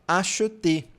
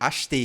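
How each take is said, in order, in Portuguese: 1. A palavra é dita devagar, com cada sílaba bem pronunciada. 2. A palavra é dita rapidamente, em uma forma reduzida. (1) "quando a gente está falando bem devagar em uma leitura" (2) "no cotidiano você vai ouvir"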